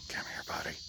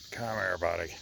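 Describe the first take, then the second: First: Breathy hushed call; gentle whispered come-here; coaxing whisper. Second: Said in the usual way. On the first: Real, not acted. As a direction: whisper softly to lure the pet.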